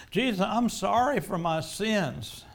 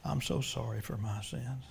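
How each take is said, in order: First: Slow, louder, higher anguished plea; fervent penitent outcry; pleading cry. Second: Humble prayer. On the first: Acted. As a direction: cry out to Jesus in repentance. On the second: Real, not acted. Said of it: "I'm gonna pray that prayer myself".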